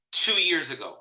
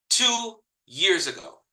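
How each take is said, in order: First: Said in the usual way. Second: "Two years ago" repeated slowly, leaning on "two"; slow emphatic repeat. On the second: Shown as a demonstration. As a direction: drag out "two" so it sinks in.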